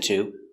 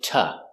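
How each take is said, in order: First: It has a full T and full vowel. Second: It has a T and a weak vowel. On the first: The speaker calls it wrong. "we don't pronounce it to" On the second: The speaker calls it right. "we pronounce it ta"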